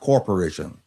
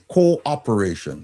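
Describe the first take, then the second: First: It is said with a 'cor' start, like corporation. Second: It is said with a clear 'co-op' start. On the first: The speaker calls it wrong. "not corporation" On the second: The speaker calls it right. "The word is cooperation"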